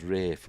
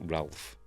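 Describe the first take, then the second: First: The name is said without an L sound. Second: The name is said with an L sound. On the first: "Why do we pronounce it as Rafe" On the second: "when it clearly says spelt Ralph"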